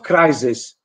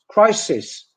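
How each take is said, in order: First: The middle consonant is a buzzing z sound. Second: The middle consonant is a hissing s sound. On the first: The speaker calls it wrong. "It's not" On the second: The speaker calls it right. "It's crisis in English"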